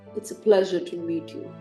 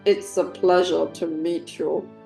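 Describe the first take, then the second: First: It is said in the speaker's ordinary voice. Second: It is said in a put-on impression voice.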